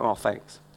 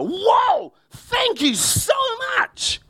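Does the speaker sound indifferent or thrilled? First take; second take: indifferent; thrilled. First: It sounds flat and indifferent. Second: It sounds excited and heartfelt.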